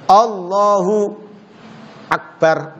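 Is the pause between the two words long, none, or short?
short. There is a short pause between the words.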